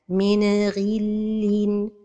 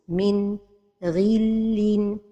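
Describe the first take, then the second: First: The n gets a bouncing echo. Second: There is a pause after the n. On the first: "c'est القلقلة de النون الساكنة" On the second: "c'est la pause"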